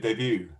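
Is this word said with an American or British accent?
American. It is said with an American pronunciation. "in American English, that's going to be a debut"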